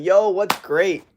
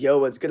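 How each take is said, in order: First: Slow, higher quirky greeting; odd greeting. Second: Said in the usual way. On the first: Retold or imitated. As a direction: say it slowly like a strange twist. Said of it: "I'm like". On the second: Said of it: "Next time someone says".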